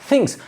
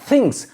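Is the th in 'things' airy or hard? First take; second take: airy; airy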